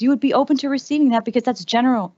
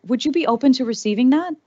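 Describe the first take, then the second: First: "You would be open to receiving that" stated with a falling end, stress on "would"; confirming statement. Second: "would you be open to receiving that" asked with the tune rising at the end; rising question. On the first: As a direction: answer it firmly, landing down on "would". Answers own question as statement. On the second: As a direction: put it to the room as a real question, voice lifting on "that". Asks audience, then answers it. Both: Shown as a demonstration.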